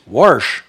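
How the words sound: An r sound comes before the sh. The speaker calls it wrong. "Then you hear some people from back east"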